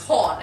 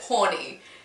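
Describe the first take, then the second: First: The name is said as one syllable. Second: The name is said as two syllables. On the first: The speaker calls it right. "my last name is Horn" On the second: The speaker calls it wrong. "he pronounced it Horny"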